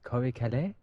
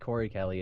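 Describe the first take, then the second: First: The name has a French-style pronunciation. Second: The name has a plain English pronunciation. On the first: The speaker calls it right. "it's more French" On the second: The speaker calls it wrong. "is not really Corey Kelly"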